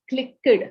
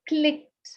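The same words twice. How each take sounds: First: The ending is said as an extra syllable. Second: The ending joins the word as one syllable. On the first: The speaker calls it wrong. "and not clicked" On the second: The speaker calls it right. "is pronounced as clicked"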